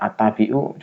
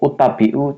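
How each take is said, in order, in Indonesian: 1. Kata ini dimulai dengan vokal a. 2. Kata ini dimulai dengan vokal u. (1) "ngarang atau kira-kira" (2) "cocok nggak ya? Enggak"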